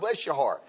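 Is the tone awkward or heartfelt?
heartfelt. It is said warmly and sincerely. The speaker is genuinely touched. "when you mean something from your heart, it touches you"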